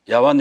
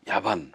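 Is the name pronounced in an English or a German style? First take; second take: English; German. First: The name is pronounced the English way. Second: The name is pronounced the German way. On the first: "영국식으로 발음하는 거고요" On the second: "독일식으로 발음하면 야반입니다"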